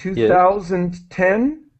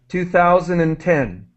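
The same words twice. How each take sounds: First: The phrase is said at an ordinary, unhurried pace. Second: The phrase is said quickly, run together.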